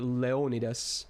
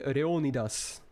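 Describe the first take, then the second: First: The name is pronounced in an English way. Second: The name is pronounced in a Japanese way. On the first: "Like in English, that would be Leonidas" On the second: "J P, there would be Leonidas"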